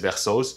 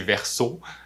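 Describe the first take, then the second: First: The name ends with a final s sound. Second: The name ends without a final s sound. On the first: "il y a plein de monde qui disent Versos" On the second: "la bonne prononciation, c'est Verso"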